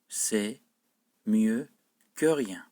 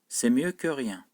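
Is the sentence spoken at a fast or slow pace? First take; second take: slow; fast. First: The sentence is spoken at a slow pace. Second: The sentence is spoken at a fast, normal pace. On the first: "Sonra da yavaş okuyorum cümleyi" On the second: "Önce hızlı okuyorum, yani normal seviyede okuyorum"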